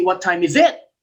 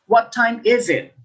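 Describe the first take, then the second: First: "What time is it" with the voice rising on "it"; "What time is it" swung up at the end; rising intonation. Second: "What time is it" with the voice falling at the end; "What time is it" as a falling question; falling intonation. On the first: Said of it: "We don't say". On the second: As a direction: ask "What time is it", dropping on "it". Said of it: "So say, we say". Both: Shown as a demonstration.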